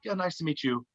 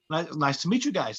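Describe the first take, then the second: First: Softer, unfriendly retold greeting; standoffish. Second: Said in the usual way. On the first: Band meeting the new comedian, standoffish. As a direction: greet them politely but with no friendliness. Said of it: "uh, not friendly". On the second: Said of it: "They were kinda like".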